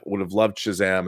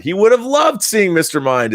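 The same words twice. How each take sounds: First: Said in the usual way. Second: "loved" punched higher and louder; emphatic agreement. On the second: Real, not acted. Host agreeing with a viewer's comment, emphatic agreement. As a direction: lean hard on "loved" in agreement.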